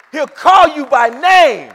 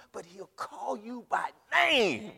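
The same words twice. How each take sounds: First: Each word slow and shouted out, much louder; loud slow proclamation. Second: Said in the usual way. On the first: Acted. Pastor proclaiming to the congregation, loud and slow. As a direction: proclaim it to the back row. Whoa, that's big.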